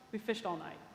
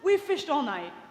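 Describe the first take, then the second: First: It sounds weary and worn out. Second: It sounds irritated and impatient.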